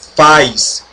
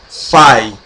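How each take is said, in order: First: The word ends with an s sound. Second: The vowel is said as an ai diphthong. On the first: "não se pronuncia faz" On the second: "e nem fai"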